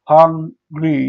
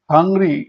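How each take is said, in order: First: hungry in two separate beats; syllable by syllable. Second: Said in the usual way. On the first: Shown as a demonstration. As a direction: say hang, pause, ri for hungry. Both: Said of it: "syllable অনুযায়ী ভাগ করি".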